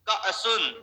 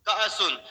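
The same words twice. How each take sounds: Both takes have the same delivery.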